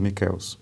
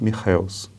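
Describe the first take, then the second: First: The name is said with Italian pronunciation. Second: The name is said with German pronunciation. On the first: "na Itália seu nome seria pronunciado" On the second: "a pronúncia correta do seu nome deve ser algo parecido com"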